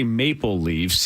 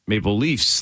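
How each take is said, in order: First: The pitch stays level across the phrase. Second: The pitch rises across the phrase. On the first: This is how the speaker's own group says it. "we say" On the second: This is how another person says it. "Like he goes up"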